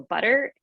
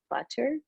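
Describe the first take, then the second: First: It is said with an American pronunciation. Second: It is said with a British pronunciation. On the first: This is how people around the speaker said it. "somebody asked me for butter" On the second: This is how the speaker learned it. "we study British English in Russia, so it's butter"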